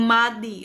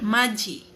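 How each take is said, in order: First: The middle consonant is a d sound. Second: The middle consonant is a j sound. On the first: The speaker calls it wrong. "Kung babasahin kasi natin ito is magiging Madi or Mati. Hindi po ha" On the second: The speaker calls it right. "Yan po ang kanyang pronunciation"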